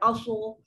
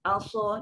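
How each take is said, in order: First: The first vowel is heavy, rounded toward o. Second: The first vowel is a thin, light a. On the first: The speaker calls it wrong. "dia takkan jadi O" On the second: The speaker calls it right. "dia tetap A"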